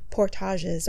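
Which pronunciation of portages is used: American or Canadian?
Canadian. It is pronounced the Canadian way. "here in Canada, we say it as portage"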